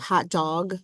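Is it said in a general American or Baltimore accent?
general American. It is said with a general American vowel.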